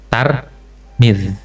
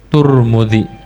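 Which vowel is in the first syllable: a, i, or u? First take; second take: a; u. First: The first syllable has the vowel a. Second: The first syllable has the vowel u. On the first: This is how people of that city say it. "fathut ta wa kasril mim" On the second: This is how careful, knowledgeable scholars say it. "yang dikatakan oleh orang yang itqan, ahlul ma'rifah dibacanya"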